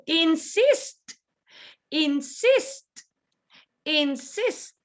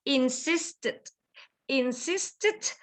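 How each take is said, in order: First: "insist" rising on the second syllable, crisp t; "insist" carefully, ending in a released t; final T sound. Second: "Insisted" in three syllables, lifting "sis"; "Insisted" carefully, in-SIS-ted; extra ending syllable. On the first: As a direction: lift "sist" in "insist" and finish on t. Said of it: "Ends with the sound". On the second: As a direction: add a light unstressed syllable to end "Insisted". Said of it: "or insisted". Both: Shown as a demonstration.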